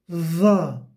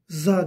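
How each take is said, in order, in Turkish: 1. Ünsüz, dil dişlerin arasında olacak şekilde sesli çıkarılır. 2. Ünsüz düz bir z sesidir. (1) "de za" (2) "Za değil"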